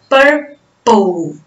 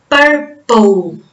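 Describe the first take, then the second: The two takes are said the same way.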